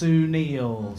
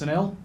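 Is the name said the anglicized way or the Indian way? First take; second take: Indian; anglicized. First: The name is said with an Indian pronunciation. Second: The name is said with an anglicized pronunciation. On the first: The speaker calls it right. "It's actually pronounced Sunil" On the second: The speaker calls it wrong. "I've been pronouncing my name wrong my whole life"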